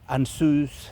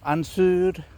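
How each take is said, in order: First: The word ends with a clear s sound. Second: The word ends with an r-like sound. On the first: The runes are treated as continental Germanic. The speaker calls it wrong. "totally wrong, never do that" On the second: The runes are treated as Nordic. The speaker calls it right. "I am not pronouncing it like an S at the end"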